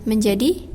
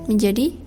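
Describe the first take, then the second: Both takes have the same delivery.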